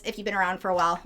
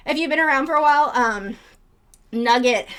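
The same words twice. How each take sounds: First: Said in the usual way. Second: Winded and a little rushed; breathless after chasing chickens; out of breath. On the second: Real, not acted. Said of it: "I'm out of breath now from chasing chickens".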